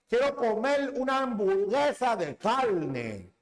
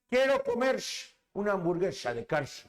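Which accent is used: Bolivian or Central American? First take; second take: Central American; Bolivian. First: It has a Central American R sound. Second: It has a Bolivian R sound. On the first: "en Centroamérica no pronuncian la R con normalidad" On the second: "en Bolivia, ¿cómo dicen?"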